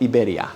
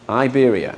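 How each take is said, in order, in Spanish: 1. Las vocales se pronuncian a la manera española. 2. Las vocales se pronuncian a la manera inglesa. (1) "no es Iberia" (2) "el anglófono dice"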